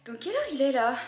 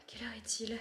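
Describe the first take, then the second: First: Said in the usual way. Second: Whispered «Quelle heure est-il?», voiceless and breathy. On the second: Shown as a demonstration.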